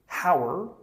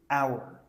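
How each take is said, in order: First: The h at the start is pronounced. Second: The h at the start is silent. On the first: The speaker calls it wrong. "Don't say" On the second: The speaker calls it right.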